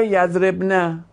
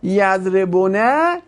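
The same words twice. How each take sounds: First: "یضربنه" with no vowel between b and n; eased form with sukun. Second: "یضربونه" drawn out, with an u vowel after the b; full form with damma. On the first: Teacher comparing ease for students, "یضربنه" with a vowelless b. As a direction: run the b straight into "na" in "یضربنه". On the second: Teacher comparing ease for students, "یضربونه" with the damma fully voiced. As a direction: sound every syllable of "یضربونه", damma on the b. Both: Shown as a demonstration. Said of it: "شما دوتایش تلفظ کن ببین کدومی که راحت تره".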